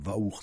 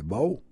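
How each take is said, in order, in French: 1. Le nom commence par un son V. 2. Le nom commence par un son B. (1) "ils disent Vaour, ça ne veut rien dire" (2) "alors que c'est Bao"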